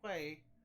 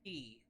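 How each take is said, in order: First: The word is said as 'kway'. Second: The word is said as 'key'. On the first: The speaker calls it wrong. "is not pronounced quay" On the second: The speaker calls it right. "it's pronounced key"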